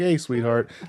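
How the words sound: It is said in a tone for a child. It is a kindly term for a small child. The speaker calls it right. "if you're talking to like a small child"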